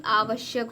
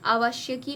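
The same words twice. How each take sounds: First: आवश्यक with long first "aa", short "va", ending in k; corrected form. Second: अवाश्यकी with long "vaa" and final "kee"; wrong form. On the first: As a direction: say आवश्यक as "AA-vash-yak". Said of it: "आवश्यक होता है". (आवश्यक में आ लंबा, व छोटा) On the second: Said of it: "अवाश्यकी नहीं". (अवाश्यकी में "वा" लंबा, अंत में "की") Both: Shown as a demonstration.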